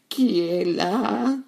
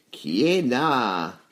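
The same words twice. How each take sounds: First: Put-on high, drawn-out old granny voice; high granny voice asking who is there; grandmother. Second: Wolf's big voice, drawn out slowly; slow, heavy wolf voice; big gruff voice. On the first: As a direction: call out slowly and high, like a frail grandmother. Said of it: "demanda la grand-mère". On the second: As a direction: ask slowly in a big wolfish voice. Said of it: "demanda une grosse voix". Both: A narrator's reading.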